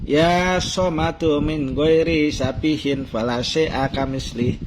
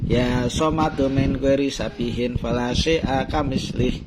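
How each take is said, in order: Both takes have the same delivery.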